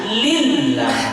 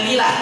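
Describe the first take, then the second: First: The l sound is held and doubled. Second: The l sound is short and single. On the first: The speaker calls it right. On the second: The speaker calls it wrong.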